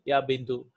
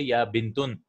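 First: The word ends with a short -u sound. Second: The word ends with an -un sound. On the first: The speaker calls it right. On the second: The speaker calls it wrong.

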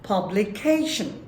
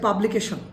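First: It is said with one syllable pitched high. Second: It is said with flat Bengali-style pitch. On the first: The speaker calls it right. "সিলেবলের একটা অংশ high স্কেলে উচ্চারিত হবে" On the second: The speaker calls it wrong. "বাংলাদেশের এটা উচ্চারণ করছে"

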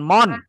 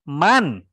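First: The vowel sounds like the one in 'mon'. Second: The vowel sounds like the one in 'man'. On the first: The speaker calls it wrong. "bukan mon" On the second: The speaker calls it right. "Man, bukan mon"

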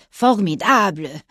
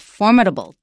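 First: The word is pronounced the French way. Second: The word is pronounced the English way. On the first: "because in French, you can say if something is very schön, en bang, it's formidable" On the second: "but in English, it's formidable or formidable"

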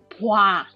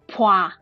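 First: The word begins with a voiced b sound. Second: The word begins with a voiceless p sound. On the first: This follows the spelling. The speaker calls it wrong. "it is spelled with ba alphabet and then wa ... So it have to be pronounced like pua" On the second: This is the normal spoken form. The speaker calls it right. "We pronounce with pua"

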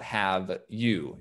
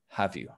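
First: The two words are said separately and fully. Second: The two words are linked together like "ha-view". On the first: The speaker calls it wrong. "the pronunciation of there is not have you" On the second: The speaker calls it right. "it's have you"

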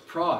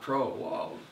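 First: The vowel is short. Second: The vowel is long. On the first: The speaker calls it right. "it's not the omega, so it's not long O" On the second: The speaker calls it wrong. "not pro"

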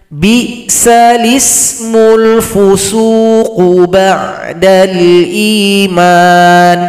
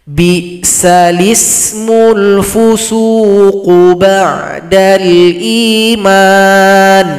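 The two takes are said the same way.

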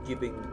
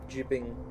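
First: The word begins with a hard g sound. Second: The word begins with a soft j sound. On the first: The speaker calls it right. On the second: The speaker calls it wrong. "I didn't mean to say jibbing"

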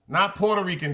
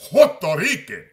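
First: The word starts with a P sound. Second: The word starts with an H sound. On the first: The speaker calls it wrong. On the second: The speaker calls it right. "the P is silent ... put an H where the P is at"

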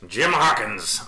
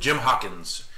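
First: It is said in a put-on pirate voice. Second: It is said in his normal voice.

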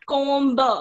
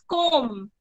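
First: The word ends with an audible B sound. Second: The word ends without any B sound. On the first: The speaker calls it wrong. "It is not comb" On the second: The speaker calls it right. "B is silent when we speak comb. It is comb"

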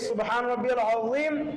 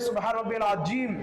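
First: The last word has a soft z sound. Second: The last word has a hard j sound. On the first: The intended meaning of the phrase. The speaker calls it right. "সহি শুদ্ধটা উচ্চারণ করতে হবে" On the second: The meaning of the phrase changes. The speaker calls it wrong. "যদি কারো এরকম হয়ে যায়"

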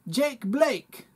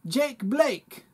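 First: It is said in a New Zealand accent. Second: It is said in a New Zealand accent.

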